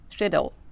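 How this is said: It is said with a British accent. "et en British English, c'est plus schedule"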